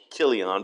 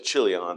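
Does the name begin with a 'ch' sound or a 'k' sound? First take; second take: k; ch. First: The name begins with a 'k' sound. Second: The name begins with a 'ch' sound. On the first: "the CH there is also like a K. It's almost Kilion" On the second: "but I really just say Chilion"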